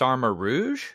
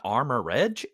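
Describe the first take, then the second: First: The name ends with a soft 'roozh' sound. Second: The name ends with a short 'rej' sound. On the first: The speaker calls it right. "It's Armor Rouge" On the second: The speaker calls it wrong. "It's not Armor Reg"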